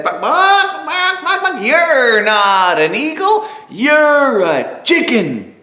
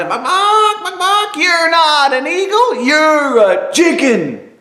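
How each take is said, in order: First: Much higher, clucking chicken chorus. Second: Much higher, squawking chicken gang; shrill squawk ganging up on him; shouting chickens. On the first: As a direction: squawk it like mocking hens. Chickens mock the eagle together. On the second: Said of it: "ganged up on him in unison and shouted". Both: Acted.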